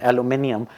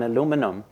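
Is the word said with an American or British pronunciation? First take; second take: British; American. First: The word is said with a British pronunciation. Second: The word is said with an American pronunciation. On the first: The speaker calls it right. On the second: The speaker calls it wrong.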